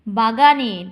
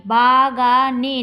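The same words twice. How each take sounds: First: Said in the usual way. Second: Slow motion. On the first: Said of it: "ভেঙে ভেঙে কিন্তু আমরা উচ্চারণ করছি না". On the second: Shown as a demonstration. Teacher splitting the word into beats, slow-motion reading. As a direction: break it into long separate syllables. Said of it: "তখন slow মোশনে পড়বে".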